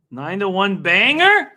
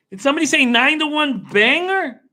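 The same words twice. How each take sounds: First: Said in the usual way. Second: Higher, excited hype-man echo; hyped-up callback. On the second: Real, not acted. Streamer hyping a long-shot horse to viewers, excited. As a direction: sell it like a big announcement.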